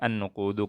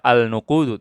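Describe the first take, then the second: First: The l merges into a doubled n sound. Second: The article's l sound is clearly pronounced. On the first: The speaker calls it right. "tapi an-nuqudu karena syamsiyah" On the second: The speaker calls it wrong. "tidak dibaca al-nuqudu"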